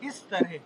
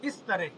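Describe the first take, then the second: First: The first vowel is a front 'i' sound. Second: The first vowel is a front 'i' sound.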